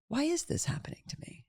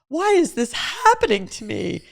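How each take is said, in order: First: It sounds curious and inquisitive. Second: It sounds panicked, like a helpless victim. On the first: I wonder what this is here to teach. "the next level is curiosity" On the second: Things are unfairly happening against me. "Which is just panic and victimization"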